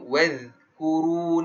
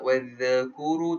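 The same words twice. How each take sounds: First: The dh sound is plain, without bounce. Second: The dh sound has an echoing bounce. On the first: The speaker calls it right. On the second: The speaker calls it wrong. "tak boleh, tak ada qalqalah kat wadh"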